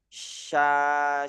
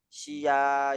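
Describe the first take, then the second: First: A strong sh flows straight into a. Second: An extra i sound comes after the sh. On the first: The speaker calls it right. "harus deras dulu suaranya" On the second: The speaker calls it wrong. "Jangan sampai syia"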